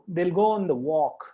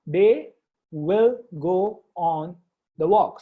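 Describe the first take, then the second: First: It is said fast with 'they will' contracted. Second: It is said slowly with 'they will' in full.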